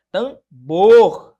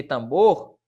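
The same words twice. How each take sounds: First: "Tambor" split in two, BOR much louder and longer; "Tambor" with a booming, stretched last syllable; stress on final syllable. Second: Said in the usual way. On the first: Shown as a demonstration. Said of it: "a sílaba tônica aqui é no". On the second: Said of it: "a sílaba tônica aqui".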